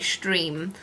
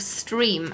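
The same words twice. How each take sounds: First: The word begins with a sh sound. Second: The word begins with a plain s sound. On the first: "in German, when you have an S T, it's st" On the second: "instead of stream"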